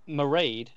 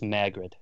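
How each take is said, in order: First: The name is said as Mairead, without a g. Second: The name is said as Margaret, with a g. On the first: This is the original Gaelic form of the name. "the Gaelic pronunciation" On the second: This is the Americanized form the owner goes by. "the Americanized saying of it"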